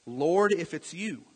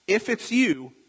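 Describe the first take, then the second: First: Said in the usual way. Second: Higher, doubtful "if"; acted uncertainty. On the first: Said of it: "and he says". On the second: Preacher voicing Peter unsure it is Jesus, doubtful. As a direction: put doubt into it, voice lifted. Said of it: "See, he's still not sure".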